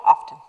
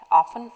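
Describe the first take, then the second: First: OFTEN said as "off-ten"; "often", t heard after the f; "often" with the t sounded. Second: OFTEN said as "offen"; "often", no t sound at all; "often" with silent t. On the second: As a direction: say "often" without its t. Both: Shown as a demonstration. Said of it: "depending on whom you're talking to".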